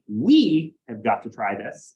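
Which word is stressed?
we. The word we carries the strongest stress. The group together needs to try it. "it emphasized us together needing to do it"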